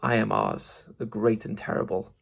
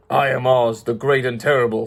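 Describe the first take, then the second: First: Soft, low-key growling voice; softer, hushed growling beast; quiet growl. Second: Half-hearted monster roar; mild beast roar. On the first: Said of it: "the low, quiet growl". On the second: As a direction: announce yourself like a huge beast, lightly played. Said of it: "in a voice that was one great roar". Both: Acted.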